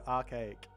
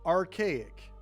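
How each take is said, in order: First: It is said with an Australian accent, no R. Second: It is said with an American accent, with R.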